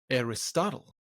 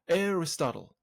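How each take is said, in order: First: The word carries two stresses. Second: The word carries only one stress. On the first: The word is fitted to the meter of a verse line. "in a pentameter line it becomes Aristotle. It takes two stresses" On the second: This is the natural everyday pronunciation. "naturally pronounced Aristotle. There's only one stress"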